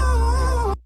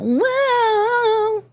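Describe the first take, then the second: First: It is said flat, with little energy. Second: It is said with lively, full energy.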